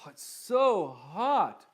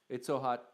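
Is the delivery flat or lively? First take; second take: lively; flat. First: The words are drawn out with lively expression. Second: The words are said plainly without expression. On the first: The speaker calls it right. "you make the words come to life" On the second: The speaker calls it wrong. "As opposed to"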